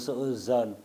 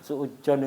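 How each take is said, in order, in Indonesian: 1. Konsonan sebelum -on itu bunyi z. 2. Konsonan sebelum -on itu bunyi j. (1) "Suuzon itu suuzon" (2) "jangan suujon itu"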